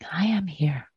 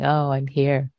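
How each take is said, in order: First: It sounds joyful and celebratory. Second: It sounds flat and bored.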